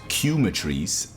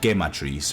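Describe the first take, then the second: First: It does not begin like chemistry. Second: It begins like the Spanish word que. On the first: "which was Cumetries" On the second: "it's kind of Spanish"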